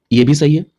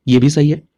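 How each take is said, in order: Both takes have the same delivery.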